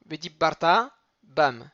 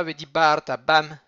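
First: Vedibarta Bam with the weight on bar; stress on bar. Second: Vedibarta Bam with the weight on ta; wrong stress. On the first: Teacher models the correct Vedibarta Bam, stressed on bar. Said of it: "il est Millera". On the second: Teacher shows the wrong Vedibarta Bam, stress at the end. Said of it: "Et pas Vedibarta Bam". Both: Shown as a demonstration.

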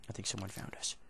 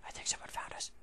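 First: Plain. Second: Whispered, no voice at all. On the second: Gamer hiding from a found enemy, whispering. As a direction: breathe it like hiding from someone. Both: Real, not acted.

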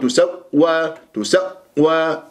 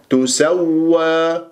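First: تسوى broken after the first waw; wrongly cut waw. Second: تسوى slow, waw held without a break; continuous waw. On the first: Teacher shows students the error, chopped تسوى. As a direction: stop the sound mid-word in تسوى, then wa. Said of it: "أقطع كأنه الصوت". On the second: Teacher corrects the cut, sustained تسوى. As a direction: glide through both waws in تسوى. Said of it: "ما استمر وأسمع الواوات". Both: Shown as a demonstration.

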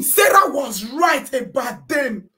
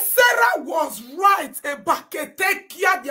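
First: Slow, louder quote; sarcastic loud quote; slow mocking shout. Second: Slow, louder scornful line; sarcastic shout; slow mocking shout. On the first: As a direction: drag it out in scorn. Quoting claim, slow and loud. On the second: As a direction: spell it out in disgust.

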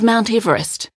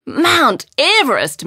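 First: Said in the usual way. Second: High, drawn-out amazed exclamation; astonished cry, pitched well up; exclaiming. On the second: A narrator's reading. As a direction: exclaim it in wonder, stretching both words. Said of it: "Mary exclaimed".

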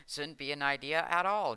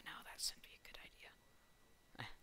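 First: Louder, higher and firm; firm louder correction. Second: Soft breathy whispered reply. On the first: Gamer loudly correcting his whispered joke, firm louder voice. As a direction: correct yourself out loud, emphatically. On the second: Gamer whispering his answer to himself, hushed whisper. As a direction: answer yourself under your breath. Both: Real, not acted.

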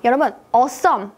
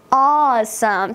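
First: Said in the usual way. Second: Slow, drawn-out Awesome with feeling; long soulful Awesome. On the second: Shown as a demonstration. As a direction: put your soul into Awesome. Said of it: "목소리에 소울을".

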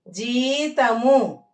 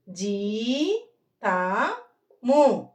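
First: Said in the usual way. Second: జీతము stretched out slowly; drawn-out జీతము, syllable by syllable; slow reading demo. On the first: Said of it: "teacher models normal reading". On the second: Shown as a demonstration. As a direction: read జీతము slowly to the class. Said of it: "teacher models slow reading".

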